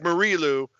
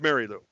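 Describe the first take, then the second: First: The first name sounds like Marie. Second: The first name sounds like Mary. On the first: The speaker calls it wrong. "It looks like Marie Lou" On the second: The speaker calls it right. "but it's Mary Lou"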